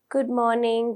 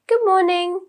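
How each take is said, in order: First: It is said flat, without intonation. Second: It is said with lively, natural intonation. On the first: The speaker calls it wrong. "you just can't say good morning, good afternoon, good evening, hello. That is not correct" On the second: The speaker calls it right. "it is important that we use some intonation"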